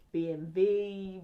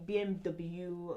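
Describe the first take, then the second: First: B M W drawn out, the W said as "vay"; German-style B M W. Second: Said in the usual way. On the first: Shown as a demonstration. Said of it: "trying to pronounce it properly". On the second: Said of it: "I didn't pronounce it properly".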